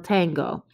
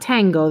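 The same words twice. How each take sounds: First: The first vowel sounds like an open A. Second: The first vowel sounds like an E. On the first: The speaker calls it right. "it's an A, el tango" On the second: The speaker calls it wrong. "Not tango, that's not an E"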